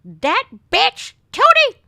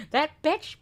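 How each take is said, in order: First: Put-on much higher, louder cursing old lady; "That bitch, Tootie!" yelled high and loud as the cursing step-grandmother; imitating step-grandmother. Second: Said in the usual way. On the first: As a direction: screech it like a feisty old Polish grandma. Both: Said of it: "you should hear the way she would talk".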